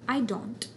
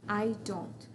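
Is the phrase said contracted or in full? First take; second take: contracted; contracted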